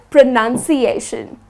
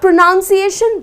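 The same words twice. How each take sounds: First: The second syllable sounds like 'nun'. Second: The second syllable sounds like 'noun'. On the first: The speaker calls it right. "the word pronunciation is spelled with N U N" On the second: The speaker calls it wrong. "Not pronunciation"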